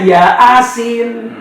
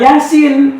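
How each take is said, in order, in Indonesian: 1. Dipisah menjadi dua bagian, ya dan asin. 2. Diucapkan lancar sebagai satu kata. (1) "takutnya ya asin" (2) "bukan Yasin"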